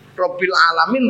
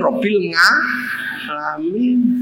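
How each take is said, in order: First: It is said in standard Arabic. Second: It is said with a Javanese accent.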